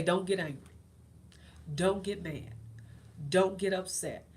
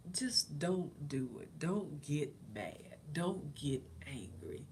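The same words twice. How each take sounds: First: Loud, firm commands to herself; firm self-warning. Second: Very slow, soft self-talk; calming herself. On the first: Talking herself out of anger, firm and loud. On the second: Calming herself instead of snapping at husband, slow and soft. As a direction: ease yourself down, slowly. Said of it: "I just calmed myself". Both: Retold or imitated.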